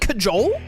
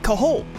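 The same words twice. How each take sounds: First: The middle consonant sounds like a J. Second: The middle consonant sounds like an H. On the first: "Is it actually cajole?" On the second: "I always thought the J was pronounced like an H"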